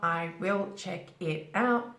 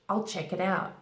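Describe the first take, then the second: First: The words are separate, with 'I will' in full. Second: The words are linked, with 'I will' contracted. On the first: The speaker calls it wrong. "Not I will check it out" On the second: The speaker calls it right. "Careful use of connected speech"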